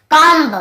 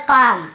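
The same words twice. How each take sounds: First: "कॉम्ब" with a sounded final B; B pronounced. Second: "कॉम" closing on M, no B; silent B. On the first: Teacher mimics reading without the rule, "कॉम्ब" with B voiced. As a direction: punch out "कॉम्ब", ending kom-buh. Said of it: "ऐसे पढ़ते हैं ना". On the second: Teacher corrects the reading for students, "कॉम" with B silent. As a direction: end "कॉम" with lips shut on M. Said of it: "हमें बी को नहीं पढ़ना है". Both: Shown as a demonstration.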